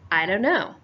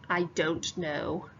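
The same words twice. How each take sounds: First: The words are reduced and run together. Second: Each word is said separately and fully. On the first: The speaker calls it right. "It sounds more like" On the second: The speaker calls it wrong. "most kids don't say"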